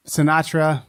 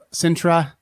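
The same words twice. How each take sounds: First: "Sinatra" said in three syllables; "Sinatra" with a stressed "nah" in the middle; Sinatra pronunciation. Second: "Sintra" said slowly in two syllables; "Sintra" drawn out, with no vowel between n and t; Sintra pronunciation. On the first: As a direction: say "Sinatra" like the singer's surname, si-NAH-truh. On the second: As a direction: say "Sintra" carefully, SIN-truh. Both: Shown as a demonstration. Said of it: "however you wanna say it".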